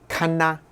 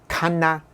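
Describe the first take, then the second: Both takes have the same delivery.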